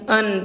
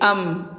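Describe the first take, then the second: First: The syllable ends with an n sound. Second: The syllable ends with an m sound. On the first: The speaker calls it wrong. "bunyinya bukan lagi an" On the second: The speaker calls it right. "tetapi menjadi am"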